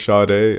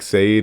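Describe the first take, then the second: First: The name is not read as spelled. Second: The name is read as its spelling suggests. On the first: The speaker calls it right. "and never Sade" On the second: The speaker calls it wrong. "I would always mess up the pronunciation"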